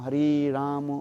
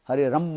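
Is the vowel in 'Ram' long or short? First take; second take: long; short. First: The vowel in Ram is long. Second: The vowel in Ram is short. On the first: The speaker calls it right. "वास्तव उच्चारण क्या है?" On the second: The speaker calls it wrong. "वो लोग कहते हैं हरे रम रम रम रम, हरे राम नहीं बोल पाता है"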